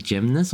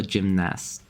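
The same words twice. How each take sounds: First: "gymnast" with a reduced, schwa-like second vowel; unsure pronunciation. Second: "gymnast" with a full "a" in "nast"; alternative pronunciation. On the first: Streamer checking pronunciation with chat, "gymnast" with weak second vowel. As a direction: say "gymnast" ending in an unstressed "nuhst". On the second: Streamer offering chat another pronunciation, "gymnast" with full-vowel "nast". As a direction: say "gymnast" with the second vowel as in "cat". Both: Shown as a demonstration. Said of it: "is it gymnast or gymnast".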